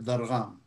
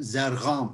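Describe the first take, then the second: First: The name begins with a D sound. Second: The name begins with a Z sound. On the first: This is the original Arabic form. "instead of Dargham" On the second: This is how Persian speakers say it. "they call me, for example, Zargham"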